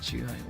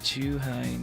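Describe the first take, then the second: First: The first syllable is short, Tokyo style. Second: The first syllable is held long, Osaka style.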